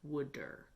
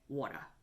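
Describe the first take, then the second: First: It is said in a Philadelphia accent, like wooder. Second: It is said in a New York accent. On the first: "South Jersey slash Philadelphians peoples have, and they pronounce the word water like wooder" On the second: "if you are my mother or any of my relatives from New York, you would say water"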